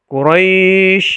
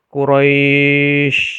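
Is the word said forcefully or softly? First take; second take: forcefully; softly. First: The word is said with forceful pressure. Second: The word is said gently and softly. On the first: The speaker calls it wrong. "tidak boleh Quraisy misalnya. Ada tekanan di situ" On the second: The speaker calls it right. "Jadi harus lembut"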